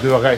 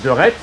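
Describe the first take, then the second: First: The final consonants of the name are silent. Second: The final consonants of the name are sounded. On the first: The speaker calls it right. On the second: The speaker calls it wrong.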